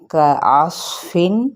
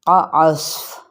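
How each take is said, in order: First: The word ends with a final -in sound. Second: The word ends abruptly on the f sound. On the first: The reading continues without stopping. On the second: The reader stops on this word.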